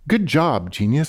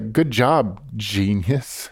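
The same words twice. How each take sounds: First: It sounds like a sincere compliment. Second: It sounds like a sarcastic put-down.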